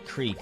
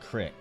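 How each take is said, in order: First: The word is said the general, non-Southern way. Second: The word is said the Southern regional way. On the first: "They don't say creek" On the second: "It is a southern thing. they say crick"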